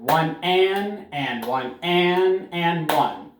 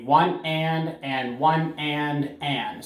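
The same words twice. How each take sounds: First: Counted with each and punched; strong ands. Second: Slow counting with ands stressed; syncopated count, and stressed; counting the rhythm. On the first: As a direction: hit every and hard in the count. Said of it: "you're gonna make those ands nice and strong". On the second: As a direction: count it out, leaning on each and. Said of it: "make those ands nice and strong". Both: Shown as a demonstration.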